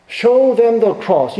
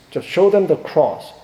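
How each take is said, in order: First: Louder and higher, each word slow and weighty on show; slow emphatic repeat. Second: Said in the usual way. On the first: Shown as a demonstration. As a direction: drive home Show them the cross, slow and raised.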